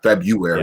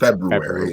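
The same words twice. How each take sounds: First: The first R in the word is dropped. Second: The first R in the word is pronounced. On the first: The speaker calls it wrong. "I didn't say the extra R in February for years" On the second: The speaker calls it right. "I really need to incorporate that in because it's legitimately there"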